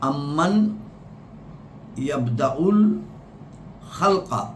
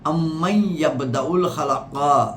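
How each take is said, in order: First: The n of amman is clearly pronounced. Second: The n of amman merges into the next word. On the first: It follows the written form. "আয়াতটি লেখা হচ্ছে" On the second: It follows the recitation rules. "ব্যাকরণের নীতি মোতাবেক উচ্চারণ হচ্ছে"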